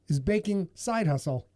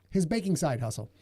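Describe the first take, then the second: First: "side" leaned on harder than "baking"; stress on SIDE. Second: "baking" leaned on, "side hustle" falling away; stress on BAKING. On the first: Host showing how syllable emphasis changes a phrase, stress on "side". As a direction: put the weight on "side" in the phrase. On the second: Host showing the other syllable emphasis, stress on "baking". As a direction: put the weight on "baking". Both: Shown as a demonstration. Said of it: "See, emphasis on syllables?".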